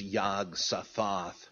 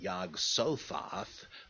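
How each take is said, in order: First: The stress falls on the final syllable. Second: The stress falls before the final syllable. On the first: The speaker calls it right. "with the last syllable accented" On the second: The speaker calls it wrong. "it just seems not euphonic to me to pronounce it Yog-Sothoth"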